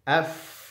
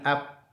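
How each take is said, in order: First: It ends in a breathy f sound. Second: It ends in a closed p sound. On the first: The speaker calls it right. "fa-nya ada napas yang mengalir" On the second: The speaker calls it wrong. "jangan ap"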